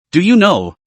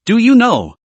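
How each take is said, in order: First: First ask held back, a little raised; a touch of an accusing father; mild angry question. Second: Half-hearted furious father; angry repeated question. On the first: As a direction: ask it firmly, saving the peak. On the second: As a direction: push the repeat up into a cry. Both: Acted. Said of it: "his voice roared hoarsely".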